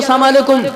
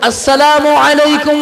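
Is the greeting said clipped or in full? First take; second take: clipped; full. First: The words run together in a clipped form. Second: Each word is pronounced fully and distinctly. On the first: The speaker calls it wrong. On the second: The speaker calls it right.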